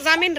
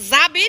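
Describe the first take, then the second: First: The middle consonant is an 'm' sound. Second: The middle consonant is a 'b' sound. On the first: The speaker calls it right. "জামিন রে" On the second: The speaker calls it wrong. "জাবিন না"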